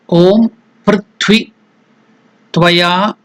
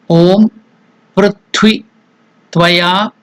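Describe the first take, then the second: No difference in how they are said.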